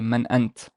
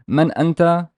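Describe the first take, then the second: First: The second word ends without a final vowel. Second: The second word ends with a final vowel. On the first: The phrase ends the utterance. "you do not produ or, or pronounce the final haraka or the final vowel" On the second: More speech follows the phrase. "Let's add something after it so it's not speech final"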